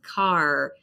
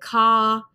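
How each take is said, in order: First: The final R is clearly pronounced. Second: The final R is not pronounced. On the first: "The R is there. I pronounce it. I'm American" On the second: "So the R at the end of the word, you don't hear it"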